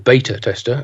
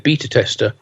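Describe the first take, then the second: First: Beta is said with an American pronunciation. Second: Beta is said with a British pronunciation.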